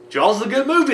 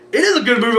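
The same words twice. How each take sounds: First: Said in the usual way. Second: "is" stressed, the line higher and louder; the guy next to him insisting "is". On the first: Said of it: "everybody's sitting here and I'm like". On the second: Retold or imitated. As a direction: lean hard on "is" to agree with him. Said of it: "the guy next to me is like".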